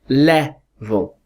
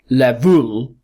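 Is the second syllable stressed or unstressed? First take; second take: unstressed; stressed. First: The second syllable is weak and unstressed. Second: The second syllable is stressed with a full vowel. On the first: The speaker calls it right. "The second syllable is weak. It's unstressed, and it's a schwa" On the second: The speaker calls it wrong. "We would never say le-vul, le-vul, because we don't stress the schwa"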